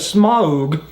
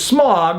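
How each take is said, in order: First: The vowel is an 'ow' diphthong. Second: The vowel is a plain 'ah' sound. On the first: It follows the original author's intended pronunciation. "You better pronounce it right" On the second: It follows modern casual usage. "a bit lazy and a little bit more with the times"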